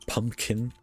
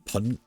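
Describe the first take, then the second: First: The first syllable is said with an M sound. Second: The first syllable is said without an M sound. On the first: The speaker calls it right. "I say pumpkin" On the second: The speaker calls it wrong. "I do not say pun"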